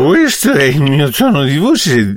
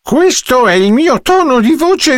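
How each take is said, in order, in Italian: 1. Si dice con una voce impastata, da ubriaco. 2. Si dice con una voce normale, di tutti i giorni. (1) "E se fossi ubriaco?" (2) "Questo è il mio tono di voce di tutti i giorni"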